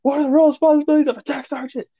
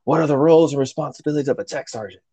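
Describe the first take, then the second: First: High, rapid-fire yelled demand; retold yell. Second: Quick, raised-pitch chief's demand; retold angry demand. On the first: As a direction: imitate a chief yelling, pitch way up, rushed. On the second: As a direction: imitate a chief firing off a pissed-off question. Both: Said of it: "he yells at him again".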